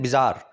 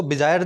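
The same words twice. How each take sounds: First: बिजार as bi-ZAAR, long open aa; correct बिजार. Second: बिजार said the mistaken way learners say it; mispronounced बिजार. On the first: Teacher shows students the proper word, बिजार pronounced bi-zaar. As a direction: model बिजार clearly, ending in a long -aar. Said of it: "इसको बोलते हैं बिजार". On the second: Teacher warns students how not to say the word, mispronounced बिजार. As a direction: show the faulty pronunciation of बिजार. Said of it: "इसको बिजार नहीं बोलेंगे". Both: Shown as a demonstration.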